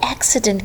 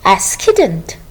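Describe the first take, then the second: First: The second C is said as an S sound. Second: The second C is said as a K sound. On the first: The speaker calls it right. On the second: The speaker calls it wrong.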